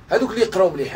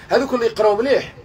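First: Said in the usual way. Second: اللي lifted higher in هذوك اللي يقراو مليح; هذوك اللي يقراو مليح with اللي pushed up; stress on اللي. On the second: Shown as a demonstration. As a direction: lean on اللي, voice raised. Repeats phrase for emphasis.

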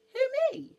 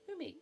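First: Very high, loud squeak; astonished shriek of a question; amazed bee. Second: High little questioning voice; mildly startled, pitched up; surprised bee. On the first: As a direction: squeal in disbelief at being picked. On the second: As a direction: ask as if you can't be the one meant. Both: Acted.

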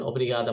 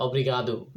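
First: "অব্রিগাদা" said clearly, ending on an open a; Portuguese thanks. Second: "অব্রিগাদো" said as a clear Portuguese word ending in o; Portuguese thanks. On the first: Vlogger teaching the women's form of thank you, "অব্রিগাদা" said clearly. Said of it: "মহিলা হলে বলবেন". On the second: Vlogger teaching the men's form of thank you, "অব্রিগাদো" said clearly. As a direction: model "অব্রিগাদো" for men. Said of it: "পুরুষ হলে বলবেন". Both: Shown as a demonstration.

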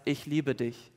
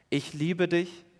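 First: Softly, almost hushed; soft tender voice. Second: Said in the usual way. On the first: Retold or imitated. Preacher voicing God speaking into the heart, hushed and tender. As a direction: lay it gently into the heart.

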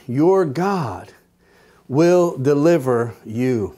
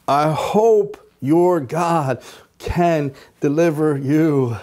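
First: Said in the usual way. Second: Slow and unsure, hoping more than believing; doubtful. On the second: Retold or imitated. King doubtfully assuring Daniel, slow hesitant tone. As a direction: let the doubt show in "hope". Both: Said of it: "I think he said it like this".

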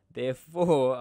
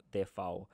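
First: "therefore" belted out much louder with a falling end; loud dramatic therefore. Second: Said in the usual way. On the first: Shown as a demonstration. Teacher announcing the gross income total, loud and dramatic. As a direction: boom out "therefore" like a drumroll payoff. Builds up to the answer.

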